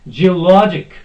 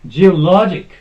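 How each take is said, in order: No difference in how they are said.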